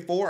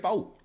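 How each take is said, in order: First: It is said in a Maryland accent. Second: It is said in a Southern country accent. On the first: "Maryland folks say" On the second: "I speak savage and country"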